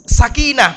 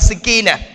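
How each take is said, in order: First: The first syllable has the vowel 'a'. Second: The first syllable has the vowel 'e'. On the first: The speaker calls it right. "Yang benar sakinah, pakai sa, pakai fathah" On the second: The speaker calls it wrong. "bukan sekinah"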